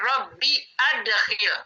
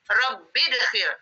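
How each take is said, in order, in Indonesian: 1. Terdengar hamzah sebelum 'adkhil'. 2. Kedua kata itu tersambung tanpa hamzah. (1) "Kita harus baca rabbi adkhil" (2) "Salah kalau dibaca rabbidkhil"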